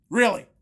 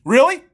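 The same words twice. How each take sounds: First: Said in the usual way. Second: Sharp rising disbelief, louder; loud incredulous rise; incredulous really. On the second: Shown as a demonstration. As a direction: spit out the question in disbelief.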